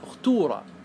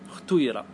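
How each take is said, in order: First: The vowel after t is a clear u. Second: The vowel after t blends u and i. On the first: "هذه بالضم" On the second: "لغات الإشمام"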